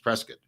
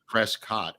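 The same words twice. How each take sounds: First: The last syllable sounds close to 'kit'. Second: The last syllable sounds like 'cot'. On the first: The speaker calls it right. "it's Prescott" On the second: The speaker calls it wrong. "most people say cot"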